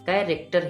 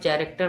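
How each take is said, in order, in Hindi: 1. शब्द 'k' ध्वनि से शुरू होता है। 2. शब्द 'ch' ध्वनि से शुरू होता है। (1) "कैरेक्टर ही पढ़ेंगे" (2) "इसे आप चा नहीं पढ़ेंगे, यानी वैसे आप कैरेक्टर नहीं पढ़ेंगे"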